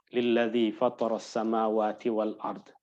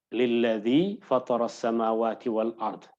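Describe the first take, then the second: Both takes have the same delivery.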